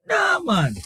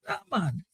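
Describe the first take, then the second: First: High, exasperated "Nah, man" flung upward; emphatic dismissal. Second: Muttered dismissal. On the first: Host waving off New Zealand's play, pitched high in disbelief. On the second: Host repeating his verdict on New Zealand, softly muttered. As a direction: let "Nah, man" fall away under your breath. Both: Real, not acted.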